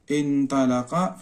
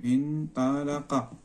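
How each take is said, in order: First: Said in the usual way. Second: انطلق drawn out softly in slow syllables; slow dictation. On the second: Shown as a demonstration. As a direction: stretch each syllable of انطلق, quietly. Dictating word while writing it.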